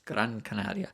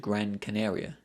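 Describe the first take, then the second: First: It is said with a put-on Spanish accent. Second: It is said with a plain English accent.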